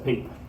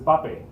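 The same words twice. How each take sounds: First: It is said as one syllable, like English. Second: It is said as two syllables, each vowel clear. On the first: The speaker calls it wrong. "you would pronounce that as pape, like paper" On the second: The speaker calls it right. "We have to pronounce each syllable"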